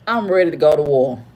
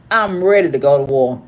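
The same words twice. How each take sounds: The two takes are said the same way.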